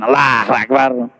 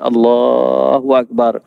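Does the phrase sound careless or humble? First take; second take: careless; humble. First: It is said in a careless, unmindful tone. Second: It is said in a humble, devout tone. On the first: The speaker lacks mindfulness before God. The speaker calls it wrong. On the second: The speaker is mindful and submissive before God. The speaker calls it right. "Orang yang sedar mengangkat takbir di depan Tuhan, dia akan sebut"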